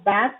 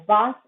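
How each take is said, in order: First: "bath" with a front a, as in cat; American vowel. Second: "bath" with an open ah; British vowel. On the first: Teacher labelling accents for learners, American "bath". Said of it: "in American". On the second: Teacher labelling accents for learners, British "bath". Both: Shown as a demonstration.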